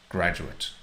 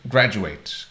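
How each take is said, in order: First: The last syllable has the noun form's vowel. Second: The last syllable has the verb form's vowel. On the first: It names a person who has a degree. "If it is a noun, then you say graduate, graduate, stressing the first syllable" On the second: It names the action of finishing a degree. "But the verb is graduate ... there's a different vowel sound"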